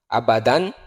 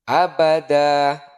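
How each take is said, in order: First: The word ends with an n sound. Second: The word ends with a long vowel.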